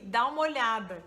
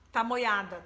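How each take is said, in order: First: Each word is said clearly and separately. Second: The words are run together and reduced. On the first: These are the actual words being said. "Era assim, dá uma olhada" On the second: This is how it sounded to a newcomer. "ele achava que as pessoas falavam de uma expressão que era tá moiado"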